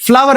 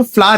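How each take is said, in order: First: फ्लावर said as two syllables, flaa-ver; wrong pronunciation. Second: फ्लावर said short, as one syllable flaar; correct pronunciation. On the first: Teacher showing students the common mistake, as flaa-ver. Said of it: "बेटा गलत बात है". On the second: Teacher giving students the right sound, flaar. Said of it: "इसको हम फ्लावर कहते हैं". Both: Shown as a demonstration.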